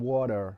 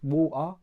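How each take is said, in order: First: The final R sound is pronounced. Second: The final R sound is dropped. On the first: "rather than" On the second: "like in London, like sometimes we don't pronounce the R's"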